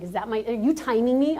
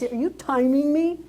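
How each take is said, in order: First: Said in the usual way. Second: Slower, pointed, sassy challenge; mock indignation. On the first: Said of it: "Yes, I was like". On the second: Speaker teasing the timekeeper with slow mock outrage. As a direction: draw each word out like a playful accusation. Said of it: "I almost was like".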